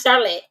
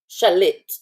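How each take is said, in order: First: The name is pronounced the plain English way. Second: The name is pronounced the French way. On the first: The speaker calls it wrong. "not Charlotte" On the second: The speaker calls it right. "That's French"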